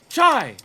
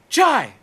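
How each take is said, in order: First: The name begins with a 'ch' sound. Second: The name begins with a 'ch' sound.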